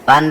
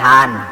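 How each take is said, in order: First: The word begins with a p sound. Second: The word begins with an h sound. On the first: "পান রেখি কন?" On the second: "কয় হান"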